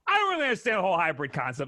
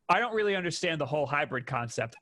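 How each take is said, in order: First: It is read in a put-on character voice. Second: It is read in the speaker's own voice. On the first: The quote is voiced as its author might say it. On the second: The quote is simply being read out.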